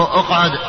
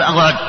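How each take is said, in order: First: اقعد with an u sound at the start, uqʕud; correct uqʕud. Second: اقعد said wrongly, with a flat a vowel, like iqʕad. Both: Shown as a demonstration. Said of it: "لا تقول".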